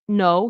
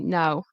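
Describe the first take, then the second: First: The vowel sounds like an American accent. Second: The vowel sounds like a British accent. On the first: "instead of saying no" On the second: "Like it sounds almost like British"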